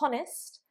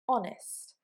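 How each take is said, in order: First: The word begins with an audible h sound. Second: The word begins directly with a vowel sound. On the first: The speaker calls it wrong. "Not honest" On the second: The speaker calls it right. "but honest. ... that consonant is silent"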